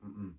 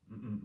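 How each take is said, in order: Both takes have the same delivery.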